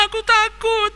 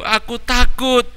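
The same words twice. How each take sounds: First: Put-on very high wailing boy, sobbing harder; wailing child. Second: Put-on higher child voice, tearful; a scared boy whimpering; crying child. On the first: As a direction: howl the fear out through tears. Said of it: "sambil menangis semakin keras". (anak menangis keras karena takut) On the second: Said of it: "Tony sambil menangis menjawab". (anak kecil takut, sedikit menangis)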